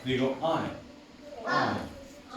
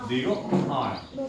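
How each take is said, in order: First: Slow, soft I, mouth barely open; relaxed I. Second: Slow I, mouth barely open; relaxed I. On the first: Teacher showing a relaxed I, not like apple. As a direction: let the I come out loose and easy. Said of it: "Sino digo más relajado". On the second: Teacher contrasting I with the open apple sound. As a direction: say I with a relaxed jaw. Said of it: "acá no abro tanto la boca". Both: Shown as a demonstration.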